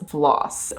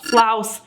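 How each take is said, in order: First: The vowel sounds like the one in 'floss'. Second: The vowel sounds like the one in 'flower'. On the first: The speaker calls it wrong. "I was incorrectly pronouncing the name of this product. I was pronouncing it like floss" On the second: The speaker calls it right. "it actually should be pronounced flouse, similar to flower"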